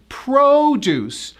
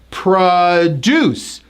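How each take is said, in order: First: The stress is on the first syllable. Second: The stress is on the second syllable.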